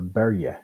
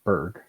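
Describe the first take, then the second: First: It is said with a Scandinavian-style pronunciation. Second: It is said with a plain North American pronunciation. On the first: "There, it's actually more pronounced of a Berge" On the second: "we pronounce it Berg because we North Americanize it"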